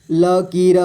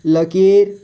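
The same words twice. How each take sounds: First: लकीर as ल, की, र; letter by letter. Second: Said in the usual way. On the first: Shown as a demonstration. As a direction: sound the final र of लकीर separately. (लकीर को तोड़कर: ल, की, र) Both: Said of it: "थोड़ा फास्ट पढ़ेंगे".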